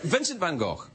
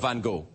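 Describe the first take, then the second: First: The name is said the European way. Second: The name is said the non-European way. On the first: "depending on if you're European or not" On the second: "depending on if you're European or not"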